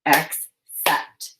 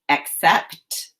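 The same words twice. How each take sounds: First: "Accept" split into two syllables with a long pause between; "Accept" broken as ac... cept; chopped syllables. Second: Said in the usual way. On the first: Shown as a demonstration. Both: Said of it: "Now chop the syllables in".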